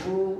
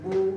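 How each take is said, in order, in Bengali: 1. স্বরটি ছোট ও পরিষ্কার উ। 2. স্বরটি ছোট ও পরিষ্কার উ।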